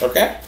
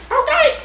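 First: Said in the usual way. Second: Very high, squeaked okay; squeaky catchphrase echo. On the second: Pretend. Host echoing the okay about the description box, squeaky. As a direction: pipe the okay back in a squeal.

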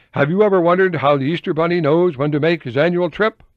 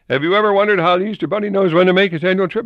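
First: Higher, louder sing-song question; catchy opening line. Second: Higher, louder, fast mocking question; hammed-up fast reread. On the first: Retold or imitated. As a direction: pitch it like a children's hook. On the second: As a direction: rattle it off in mockery. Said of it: "Editor was telling me".

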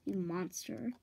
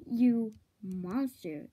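First: Said in the usual way. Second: You monster dragged out slowly and louder; drawn-out insult. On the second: Acted. Villain repeats You monster slowly, mocking the insult. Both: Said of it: "the way you said it".

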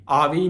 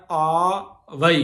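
First: ਆਵੀ in two short syllables, "aavi"; contracted ਆਵੀ. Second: ਆਵਈ drawn out slowly as "aa-va-ee"; full ਆਵਈ. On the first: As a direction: squash the ending of ਆਵੀ into "vi". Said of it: "ਆਵੀ ਨਹੀਂ ਕਹਿਣਾ". (ਆਵੀ ਛੋਟਾ ਕਰਕੇ) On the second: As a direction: stretch ਆਵਈ, giving every vowel its sound. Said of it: "ਇੱਥੇ ਧਿਆਨ ਦੇਣਾ". (ਆਵਈ ਲਮਕਾ ਕੇ, ਪੂਰਾ ਉਚਾਰਨ) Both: Shown as a demonstration.

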